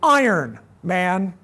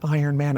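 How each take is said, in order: First: There is a pause between the two words. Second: The two words run together without a pause. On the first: The listeners are called iron and addressed as man. The speaker calls it right. "it's like Iron comma man" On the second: The listeners are called a single name, Iron Man. The speaker calls it wrong. "not Iron Man"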